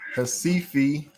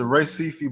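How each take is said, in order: First: The name begins with an H sound. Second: The name begins with an R sound.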